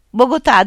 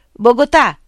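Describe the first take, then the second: First: Loud, high call of the name. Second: A blind villager calls across the meadow; calling out. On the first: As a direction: shout it across the fields to find him. (richiamo forte e acuto) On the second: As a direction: call the name out loud and high. (chiamata ad alta voce) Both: A narrator's reading. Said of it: "chiamò uno".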